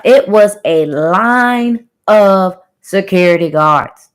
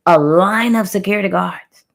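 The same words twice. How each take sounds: First: "line" stretched out long, every word slow and weighty; slow, drawn-out emphasis on "line of security guards"; emphatic reminder. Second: "line of security guards" restated more evenly; emphatic repeat. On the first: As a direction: spell out "it was a line of security guards" slowly, leaning hard on "line". Emphatic reminder, then repeated faster. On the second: Repeats the reminder more briskly. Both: Real, not acted.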